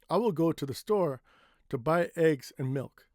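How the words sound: Pauses fall only between the phrases. The speaker calls it right. "It's better to take a break here or here"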